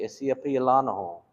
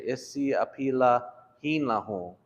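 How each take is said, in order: First: It is said fast with syllables run together. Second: It is said slowly with every syllable.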